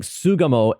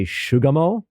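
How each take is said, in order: First: Sugamo with a plain S at the start; proper Sugamo pronunciation. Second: Shugamo with an SH, like sugar; mispronounced Sugamo. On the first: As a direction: say Sugamo as SOO-ga-mo, with no sh sound. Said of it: "doesn't say Sugamo properly". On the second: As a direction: say Shugamo as SHOO-ga-mo. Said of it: "looks like the beginning of sugar". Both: Shown as a demonstration.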